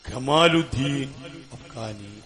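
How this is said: The name begins with a hard 'g' sound. This is how Egyptians say the name. "ഖമാലുദ്ദീൻ അഫ്ഖാനി എന്ന് പറയും"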